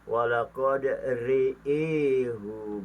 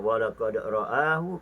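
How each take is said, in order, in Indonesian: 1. Vokalnya condong ke bunyi 'i'. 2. Vokalnya diucapkan sebagai 'a' terbuka. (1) "dibaca dengan imalah" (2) "ra'a itu bacaan tahqiq biasa"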